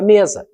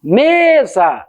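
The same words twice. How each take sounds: First: Said in the usual way. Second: Mesa with a long, held ME; stress on first syllable. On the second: Shown as a demonstration. Teacher showing a paroxytone, long ME in Mesa. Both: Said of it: "é uma paroxítona".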